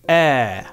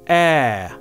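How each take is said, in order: First: The vowel sound is held long. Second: The vowel sound is held long.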